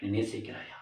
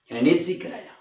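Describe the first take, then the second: First: Said in the usual way. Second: Pleading repeat. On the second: Shown as a demonstration. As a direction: plead the question again. (கெஞ்சும் மறுகேள்வி)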